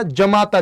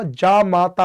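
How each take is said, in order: First: जमाता with a short first a, shown as the wrong form. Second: जामाता slow and clear, first aa drawn long; correct long aa. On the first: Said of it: "जमाता ना होकर के". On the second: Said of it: "ना होकर के क्या होगा". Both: Shown as a demonstration.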